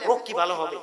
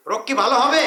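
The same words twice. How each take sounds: First: Said in the usual way. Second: Rising, louder, with a laugh; louder rhetorical question. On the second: Shown as a demonstration. Preacher asks the crowd, louder with a laugh. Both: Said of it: "আমার আলোচনা করলে আপনারা বুঝতেছেন".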